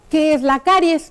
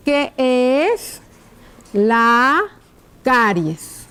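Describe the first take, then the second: First: Said in the usual way. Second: Slow, word by word with pauses; writing-out dictation. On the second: Shown as a demonstration. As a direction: dictate it slowly as you write. Dictates while writing the question out. (dictado lento, palabra por palabra)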